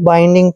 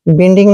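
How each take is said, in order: First: The first vowel is a long 'eye' sound. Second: The first vowel is a short 'i' sound. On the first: The speaker calls it right. "बाइंडिंग पढ़ना है" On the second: The speaker calls it wrong. "बिंडिंग नहीं पढ़ना है"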